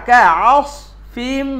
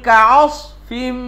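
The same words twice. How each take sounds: The two takes are said the same way.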